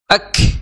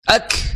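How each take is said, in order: First: The final k is released with heavy breath. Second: The same.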